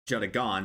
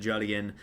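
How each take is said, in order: First: The stress falls on the last syllable. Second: The last syllable is not stressed. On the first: The speaker calls it right. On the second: The speaker calls it wrong.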